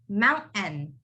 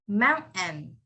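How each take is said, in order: The two takes are said the same way.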